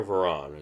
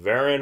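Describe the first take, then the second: First: Varan stressed on the second syllable; Varan, weak start and an open "ah" ending; pronunciation demo. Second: Varen stressed on the first syllable; Varen, opening like "vair" with a weak ending; pronunciation demo. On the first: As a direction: say Varan as vuh-RAHN. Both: Shown as a demonstration. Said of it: "Is it Varen or Varan?".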